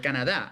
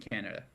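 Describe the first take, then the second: First: It is said with an imitated Spanish-style pronunciation. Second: It is said with a plain English pronunciation.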